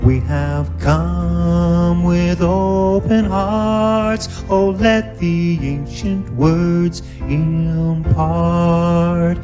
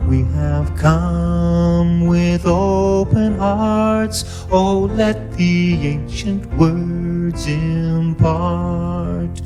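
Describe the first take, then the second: No difference in how they are said.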